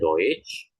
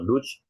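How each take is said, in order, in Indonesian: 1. Vokalnya adalah bunyi oy. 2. Vokalnya adalah bunyi uh yang pendek. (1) "E U tadi dibaca O I ya ... maka dibacanya Deutsch" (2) "kalau Dutch, nah itu nggak nyam, eh, salah ya"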